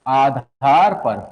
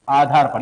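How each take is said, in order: First: Drawn out slowly, low pitch; slow dictation. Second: Said in the usual way. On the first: Real, not acted. Teacher dictating a heading to students, slow dictation. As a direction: stretch the words for note-takers.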